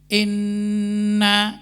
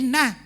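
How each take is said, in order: First: The n is held with a long nasal hum. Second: The n is said short without nasal hum. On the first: The speaker calls it right. "kan ada gunna" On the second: The speaker calls it wrong. "jadi inna gitu saja. Salah jadinya"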